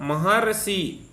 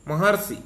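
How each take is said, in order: First: Maharshi stretched very slowly, each syllable separate; slow teaching demo of Maharshi. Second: Said in the usual way. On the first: Shown as a demonstration. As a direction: spell out Maharshi slowly so the अर is heard. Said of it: "अर आ रहा है". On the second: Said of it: "अर शब्द छिपा है महर्षि में".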